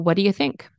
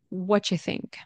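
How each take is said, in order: First: The phrase is said fast with mild reduction. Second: The phrase is said with 'do' dropped entirely. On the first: It is common casual speech. "This is common and fast casual speech" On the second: It is even more casual and informal. "And this is even more casual and more informal"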